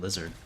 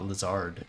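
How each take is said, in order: First: The stress is on the first syllable. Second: The stress is on the second syllable. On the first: The speaker calls it right. "the word is based off of lizard" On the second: The speaker calls it wrong. "so much emphasis is put on the Zard syllable"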